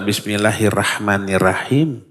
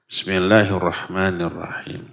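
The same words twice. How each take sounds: First: The r is light, with a plain a vowel. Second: The r is heavy, with an o-like vowel. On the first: The speaker calls it wrong. "Kita tidak boleh membaca" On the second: The speaker calls it right. "Tapi dengan ro. Ro-nya yang, yang tebal karena di fathah"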